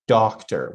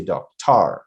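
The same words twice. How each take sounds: First: DOCtor, first syllable strong, second weak; doctor with a reduced, unstressed ending; correct stress. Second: DocTAR, second syllable stressed with a full "ar" vowel; doctor mis-stressed on its last syllable; wrong stress. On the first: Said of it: "So we say". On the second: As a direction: hit the end of doctor as "TAR". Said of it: "We don't say doctor". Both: Shown as a demonstration.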